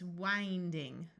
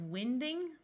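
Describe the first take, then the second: First: The first vowel is a long i sound. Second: The first vowel is a short i sound. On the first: It is built on the verb meaning to turn. The speaker calls it right. "we need the verb, so it's winding" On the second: It is built on the noun for moving air. The speaker calls it wrong. "That doesn't make sense. Wind is a noun, not a verb"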